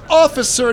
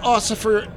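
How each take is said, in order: First: The middle consonant is an F sound. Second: The middle consonant is an S sound. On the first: The speaker calls it right. "It's officer" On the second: The speaker calls it wrong. "not ossifer"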